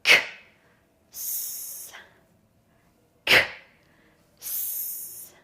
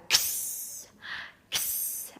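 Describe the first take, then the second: First: "K" and "S" far apart, voiceless; long pause between "K" and hissed "S"; slow, separated sounds. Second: "K" run straight into hissed "S"; quick voiceless "ks", no gap inside; faster blend. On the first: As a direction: sound out "K", wait, then "S". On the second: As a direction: join "K" and "S" into one sound. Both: Shown as a demonstration. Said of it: "now we're gonna do it faster".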